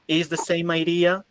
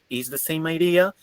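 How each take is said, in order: No difference in how they are said.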